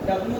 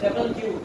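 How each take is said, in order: First: The letter is said as clipped 'dablyu'. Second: The letter is said as full 'double-u'. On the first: The speaker calls it wrong. "डब्ल्यू नहीं होता है" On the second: The speaker calls it right. "ये बोला जाता है डबल क्यू"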